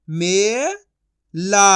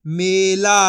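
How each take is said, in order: First: मे rising long, pause, ला; syllable by syllable. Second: Said in the usual way. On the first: Shown as a demonstration. Teacher sounding out for learners, syllable by syllable. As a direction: split Mela into two drawn-out sounds. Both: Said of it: "direct मात्रा का उच्चारण".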